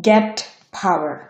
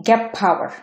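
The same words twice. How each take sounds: First: Said in the usual way. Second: Gap power, with "get" ending in p; assimilated T. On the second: Shown as a demonstration. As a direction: say "gep" straight into power for gap power. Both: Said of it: "এটা উচ্চারণ হবে".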